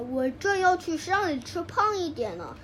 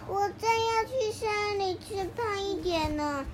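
First: It is said in a somewhat louder voice. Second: It is said in a very small, quiet voice.

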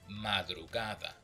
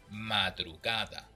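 The two takes are said the same way.

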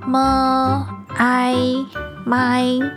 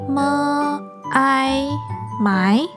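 First: The pitch stays high and level. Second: The pitch rises from mid to high. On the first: "好像没有麦这个字诶" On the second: "那你试试看二声呢？"

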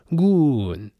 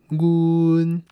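First: The tone falls from a high pitch. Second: The tone stays high and level. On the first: This is the word's original citation tone. "原调它应该是念阮。阮它是台语的第2 调" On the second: This is the changed tone before another word. "所以第2 调要变第1 调"

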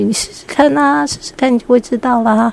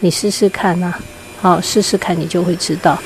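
First: It is said in an excited, cheerful tone. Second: It is said in a calm, even tone.

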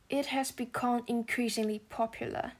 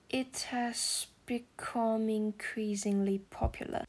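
First: It is spoken at a normal pace. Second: It is spoken slowly with the words linked.

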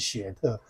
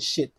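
First: The vowel does not sound like 'it'. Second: The vowel sounds like the 'i' in 'it'. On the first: The speaker calls it wrong. "这不念雪特" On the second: The speaker calls it right. "他念it 的音"

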